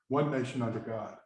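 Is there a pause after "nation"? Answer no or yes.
no. It is said as one phrase without a pause.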